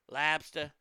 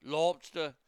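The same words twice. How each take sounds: First: "lobster" as "labstuh", open flat A, no final R; Boston accent. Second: "lobster" as "lawbstuh", rounded first vowel, no final R; Boston accent. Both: Shown as a demonstration. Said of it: "But they'll say car".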